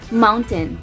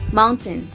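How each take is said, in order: First: The last syllable sounds like ten. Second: The same.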